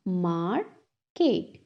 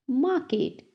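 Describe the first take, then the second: First: "market" slowly split as mar, ket; syllable by syllable. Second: Said in the usual way. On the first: Shown as a demonstration. Teacher has class repeat, "market" broken in two. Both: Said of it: "टू syllables में divide".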